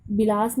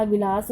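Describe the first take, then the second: First: विलास said with a b, as bilas; the wrong way: विलास with b at the start; wrong b sound. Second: The right way: विलास with v at the start; विलास as vilas; correct v sound. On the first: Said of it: "विलास नहीं होता". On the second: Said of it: "विलास होता है". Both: Shown as a demonstration.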